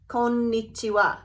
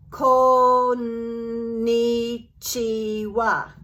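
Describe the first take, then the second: First: Said in the usual way. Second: Very drawn-out, sustained syllables; slow-motion practice pronunciation; exaggeratedly slow. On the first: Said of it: "this idea of clapping for the sounds". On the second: Shown as a demonstration. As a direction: stretch every beat on a level pitch. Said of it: "You're not gonna go around talking that way".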